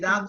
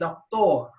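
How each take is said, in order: First: It is said with an English accent. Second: It is said with a Spanish accent. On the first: The speaker calls it wrong. "you don't say doctor" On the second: The speaker calls it right. "in Spanish, you say doctor"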